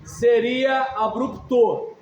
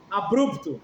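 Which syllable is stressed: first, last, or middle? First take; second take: last; middle. First: The stress is on the last syllable. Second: The stress is on the middle syllable. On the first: The speaker calls it wrong. "Se fosse oxítona" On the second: The speaker calls it right. "é paroxítona, porque é abrupto"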